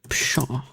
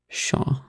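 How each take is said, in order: First: The word starts with an audible p sound. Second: The word starts with a plain sh sound. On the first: The speaker calls it wrong. "am I even saying it right?" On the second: The speaker calls it right. "you don't even say the P"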